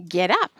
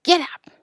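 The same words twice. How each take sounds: First: Firm order in an everyday pitch; understated sternness; stern command. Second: Higher-pitched call to the calves; storybook driver's shout; mild shouted command. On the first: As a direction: order the calves firmly, no shouting. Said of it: "Almanzo sternly said". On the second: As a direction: call out an order without full volume. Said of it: "cracked his whip and shouted". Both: A narrator's reading.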